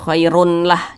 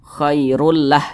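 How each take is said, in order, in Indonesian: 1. Bunyi n yang jelas terdengar sebelum l. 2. Bunyi n melebur sepenuhnya ke dalam l. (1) "jangan khairun lah" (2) "Jadi dibaca khairul lah"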